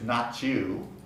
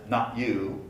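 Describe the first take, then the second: First: The T blends with the following Y sound. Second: The T is said as a glottal stop. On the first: "The T at the end of not might blend with the Y at the beginning of you" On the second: "with a glottal stop"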